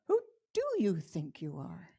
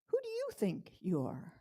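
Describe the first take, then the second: First: The stress falls on the word do. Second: The stress falls on the first you.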